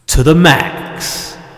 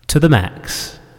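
First: It is shouted loudly. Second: It is said at a quieter volume.

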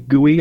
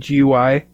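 First: It is said as one whole word. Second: It is spelled out letter by letter. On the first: "I don't say GUI" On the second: "I say GUI"

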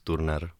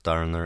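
First: The name is pronounced the Czech way. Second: The name is pronounced the English way. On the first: The speaker calls it right. "In Czech, we pronounce it in Czech" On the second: The speaker calls it wrong. "it's not Turner"

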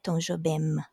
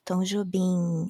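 First: The name ends in an M, lips closing. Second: The name ends in a nasal N, lips apart. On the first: The speaker calls it wrong. "It's not an M sound" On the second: The speaker calls it right. "it's an N sound"

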